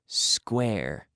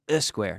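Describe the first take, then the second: First: The word begins directly with the s. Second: An extra e vowel comes before the s. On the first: The speaker calls it right. "so no E before the S sound" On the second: The speaker calls it wrong. "not uh, not a square. No"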